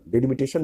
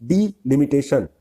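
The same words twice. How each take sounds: First: डिलिमिटेशन with the first syllable as a short "de-"; wrong pronunciation. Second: Slow डिलिमिटेशन with a drawn-out "dee-" first syllable; correct pronunciation. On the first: Teacher rejects this reading for students, wrong pronunciation. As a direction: say डिलिमिटेशन as "deh-limitation". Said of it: "नहीं". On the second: Teacher models the right reading for students, slow correct pronunciation. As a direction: stretch डिलिमिटेशन out as "dee... limitation". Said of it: "पढ़ेंगे इसको". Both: Shown as a demonstration.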